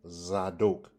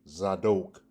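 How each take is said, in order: First: The second syllable has an O vowel. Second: The same.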